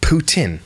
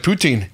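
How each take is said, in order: First: The second syllable sounds like 'tin'. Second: The second syllable sounds like 'teen'. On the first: The speaker calls it right. "So imagine the word poo and the word tin" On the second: The speaker calls it wrong. "he's all confident like he's saying it right. It's not"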